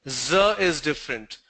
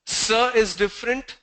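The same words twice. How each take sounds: First: "z" buzzed as in zoo, tune falling; buzzing Z sound, closing the contrast; z contrast demo. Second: S as a voiceless hiss, tune rising; unvoiced S sound, lifted for contrast; s contrast demo. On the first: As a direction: say "z" voiced, pitched down. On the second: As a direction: say "S" as in seal, pitched up. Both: Shown as a demonstration. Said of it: "mistakes making in terms of s and z".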